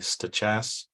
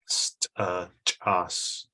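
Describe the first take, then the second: First: It is said with English-style sounds. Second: It is said with the language's original sounds. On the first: This is how people who learned the English spelling say it. "People say stachas" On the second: This is how the name is traditionally said. "the traditional way of enunciation is stachas"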